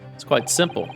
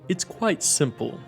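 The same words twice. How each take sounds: First: It is read in the speaker's ordinary voice. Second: It is read in a put-on character voice. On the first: The speaker calls it wrong. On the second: The speaker calls it right.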